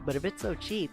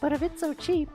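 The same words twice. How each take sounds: First: It is said in a different character's voice. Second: It is said in the preceding character's voice.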